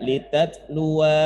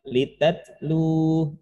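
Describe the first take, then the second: First: The word ends with an added 'a' sound. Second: The word stops short on the 'u' sound. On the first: The speaker calls it wrong. "Bukan dibaca litatlua, bukan" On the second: The speaker calls it right. "Litatlu, nah, gitu"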